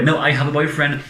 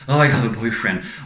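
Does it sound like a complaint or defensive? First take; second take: defensive; complaint. First: It sounds firm and defensive. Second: It sounds like a sad complaint.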